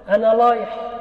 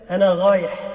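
First: The r sound is said as l. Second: The r sound is said as gh. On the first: "أبدلت الراء لاما" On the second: "قلبت الراء غينا"

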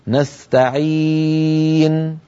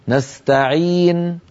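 First: The long vowel is held for four counts. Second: The long vowel is held for two counts. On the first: "يجوز فيه أربع حركات" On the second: "يجوز فيه قصره"

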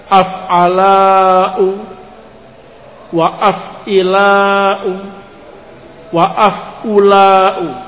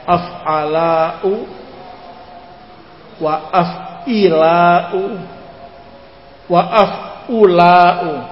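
The two takes are said the same way.

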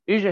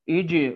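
First: The jeem is pronounced weakly without full closure. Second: The jeem is pronounced with full strong closure. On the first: The speaker calls it wrong. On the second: The speaker calls it right.

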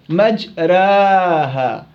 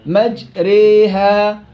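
First: The long vowel is bent slightly toward ee. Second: The long vowel is bent strongly toward ee. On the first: "الصغرى تكون 75% ألف و 25% ياء" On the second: "إمالة كبرى تكون أقرب إلى الياء"

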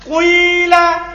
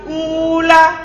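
First: The first vowel starts as u, then shifts to i. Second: The first vowel is a pure u sound. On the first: "Ismam itu digabungkan antara suara dhamma sedikit, setelah itu suara apa? Kasro" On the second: "Domba cocok dengan siapa? Wow, maka alif diganti menjadi apa? Wow"

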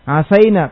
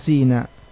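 First: The vowel after the s is an a. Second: The vowel after the s is an i.

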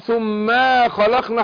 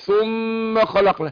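First: The vowel after the m is drawn out long. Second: The m is held nasally; the vowel stays short. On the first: The speaker calls it wrong. "ما اقولش ثم خلقنا حطيت الف" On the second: The speaker calls it right. "اقول ثم خلقنا"

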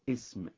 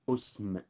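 First: The word begins with an i vowel. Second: The word begins with a u vowel. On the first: "اسم بكسر الهمزة" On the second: "ضم الهمزة"

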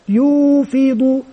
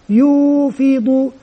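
The two takes are said the same way.

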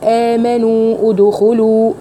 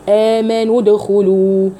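First: The first word's final long vowel is held. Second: The first word's final long vowel is dropped. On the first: The speaker calls it wrong. "فهقول آمنوا ادخلوا فهيحصل ثقل" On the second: The speaker calls it right. "هحذف حرف المد الاول"

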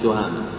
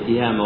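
First: The first vowel is an 'a' sound. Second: The first vowel is an 'i' sound. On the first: The speaker calls it wrong. "وليست" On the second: The speaker calls it right. "منخفضة فتناسبها الكسرة"

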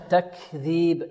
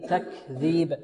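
Both takes have the same delivery.

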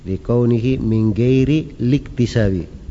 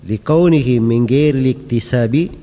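The two takes are said the same way.

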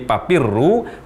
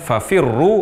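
First: The word is said with p sounds. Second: The word is said with f sounds. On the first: The speaker calls it wrong. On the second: The speaker calls it right.

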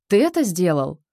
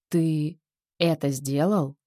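First: The pitch rises sharply. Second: There is a pause and the pitch falls. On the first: It expresses surprise or indignation. "Резкий подъем тона" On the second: It expresses disappointment or a threat. "С паузой и понижением"

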